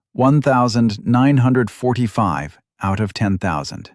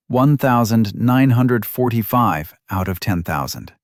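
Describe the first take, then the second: No difference in how they are said.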